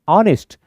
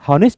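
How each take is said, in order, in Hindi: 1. यह शब्द स्वर की ध्वनि से शुरू होता है। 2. यह शब्द h की ध्वनि से शुरू होता है। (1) "एच इज साइलेंट" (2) "मुंह में हॉनेस्ट नहीं आता"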